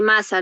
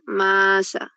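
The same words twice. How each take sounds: First: Said in the usual way. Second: MASA drawn out, first syllable held long; slow, teacherly "Maa-sa" showing both syllables. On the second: Shown as a demonstration. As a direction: stretch "Masa" into two syllables, ma-sa. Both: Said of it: "Acá estas dos sílabas son libres".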